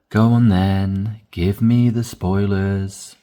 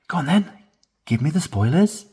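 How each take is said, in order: First: It sounds tired, fed up and low in energy. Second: It sounds eager, lively and high in energy. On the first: The speaker has given up resisting the spoilers. "It sounds fed up and tired" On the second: The speaker really wants to hear the spoilers. "More excitedly"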